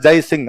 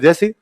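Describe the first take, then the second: First: Both parts of the name are fully pronounced. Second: The name is clipped into one short word. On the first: "आप किसी का नाम जय सिंह पूरा नहीं बोलते" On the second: "अपने ये बोलते जयसी"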